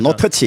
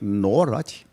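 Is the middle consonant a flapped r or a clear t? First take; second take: clear t; flapped r. First: The middle sound is a clear, crisp t. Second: The middle sound is a soft flapped r. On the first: These are the actual English words behind it. "이건데" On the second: A foreigner is shouting a warning in English. "미국인이 와서 에이 노라지"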